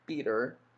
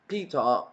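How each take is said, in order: First: It is said in an American accent. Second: It is said in a British accent. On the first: "in my American accent" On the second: "but in British accent, I'ma say like Peter"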